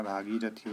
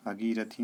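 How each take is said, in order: First: भागीरथी with long "bhaa"; correct pronunciation. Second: भगीरथी with a short first vowel; wrong pronunciation. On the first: Teacher gives the right form, long opening of भागीरथी. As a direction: lengthen the first syllable of भागीरथी. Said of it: "होता है". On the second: Teacher voices the error, short opening of भगीरथी. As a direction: keep "bha" short in भगीरथी. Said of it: "नहीं होता है". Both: Shown as a demonstration.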